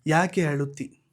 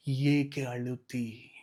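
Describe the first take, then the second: First: Said in the usual way. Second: Slow, low whisper of ಏಕೆ ಅಳುತ್ತಿ; tender hushed asking; whispered question. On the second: Acted. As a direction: lean in and whisper it slowly. God's question, intimately repeated.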